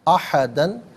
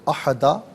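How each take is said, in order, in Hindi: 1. शब्द n की आवाज़ पर खत्म होता है। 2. शब्द लंबे a स्वर पर खत्म होता है।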